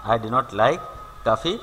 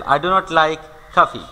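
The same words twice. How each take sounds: First: Said in the usual way. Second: Very slow, each word spaced out for the class; slow dictation. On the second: Shown as a demonstration. Teacher reading a sentence slowly for students to copy. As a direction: read it out slowly so students can follow.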